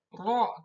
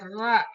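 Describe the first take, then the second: First: The r is thick with rounded open mouth. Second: The r is thin with a plain vowel. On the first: The speaker calls it right. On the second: The speaker calls it wrong. "tidak ra"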